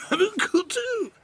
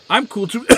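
First: High, slow nerdy squeak; dorky wannabe. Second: High eager nerdy voice; dorky wannabe. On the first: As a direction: drag it out like the uncool kid. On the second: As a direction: chirp it like the uncool kid. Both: Retold or imitated. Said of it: "the one with, like, who's like".

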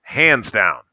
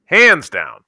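First: Said in the usual way. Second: "Hands down" punched louder and higher; emphatic repeat. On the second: Real, not acted. Fan ranking the film third, "Hands down" said emphatically. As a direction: drive home "Hands down" with raised pitch and volume. Repeats his verdict with more force.

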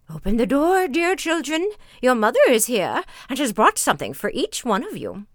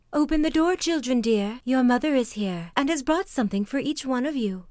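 First: Loud, raised, lightly voiced wolf posing as mother; wolf's rough voice. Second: Higher-pitched wolf lightly imitating mother; wolf's softened voice. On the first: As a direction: call out as a wolf badly faking mother. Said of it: "knew from the rough voice". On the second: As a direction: coax sweetly as a wolf posing as mother. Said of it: "making his voice soft".

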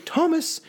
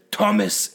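First: High-pitched mimicked woman's voice; imitated ghostly woman, pitched right up; female ghost voice. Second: Lightly imitated man's ghost voice; a hint of a male spirit calling; mildly put-on male voice; deep male voice. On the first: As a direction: call it high, like a female spirit. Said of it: "exact same fucking female voice". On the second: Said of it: "in, like, a deep male voice".

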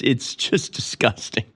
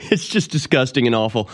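First: Hushed, slow, breathy disgust; disgusted whisper. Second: Said in the usual way. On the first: Real, not acted. Host recoiling from the Super Bowl, whispered disgust. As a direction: drop to a whisper of revulsion.

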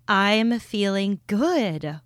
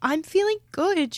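First: Said in the usual way. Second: High, bright and excited. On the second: Real, not acted. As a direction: lift it up with excitement. Repeats with more energy.

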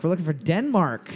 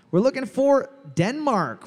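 First: Said in the usual way. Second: High, bright host call-out; emcee announcement. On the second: Shown as a demonstration. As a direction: sing out the answer like a quiz host.

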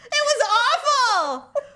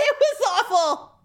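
First: Slow, drawn-out "awful", pitched high; emphatic laughing dismay. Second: Real laughter, pitched high; laughing dismay. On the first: Woman repeating her humiliation for emphasis, slow laughing wail. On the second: Woman recalling her humiliation to friend, laughing dismay. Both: Real, not acted.

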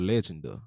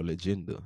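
First: Legenda said as LEJ-en-da; first-syllable stress. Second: Legenda said as luh-JEN-da; second-syllable stress. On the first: Reader trying out a book title, Legenda stressed up front. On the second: Reader offering another guess at the title, Legenda stressed in the middle. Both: Shown as a demonstration. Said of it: "however you pronounce it".

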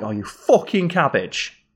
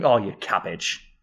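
First: Higher and slow, stressing "fucking" as a jab; the insult take of "you fucking cabbage", slow with a sharp "fucking". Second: Affectionate. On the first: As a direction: spit it out as a put-down. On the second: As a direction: say it like a term of endearment. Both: Shown as a demonstration. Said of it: "based on how it's delivered".

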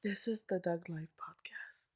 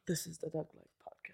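First: Put-on whispered British accent, slow; hushed, slow British accent. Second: Put-on breathy, overdone British accent. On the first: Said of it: "that sounded British". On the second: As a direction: push the British accent too far. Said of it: "now you're doing it too hard".

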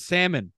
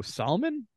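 First: Salmon said SAM-un, with no L; silent L. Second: Salmon said SOL-mun, with the L sounded; L pronounced. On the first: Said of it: "those who pr-, mispronounce salmon". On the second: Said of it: "so salmon, I guess". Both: Shown as a demonstration.

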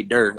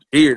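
First: "der" said for dear, low and soft; St. Louis "der". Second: Said in the usual way. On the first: Shown as a demonstration. Explaining how St. Louis folks say dear, "der". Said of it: "they say". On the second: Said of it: "instead of saying".

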